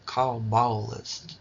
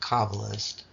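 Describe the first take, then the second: First: The word is said with an exaggerated accent. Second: The word is said in an ordinary way. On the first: "I emphasized it with an accent" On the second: "Instead of saying"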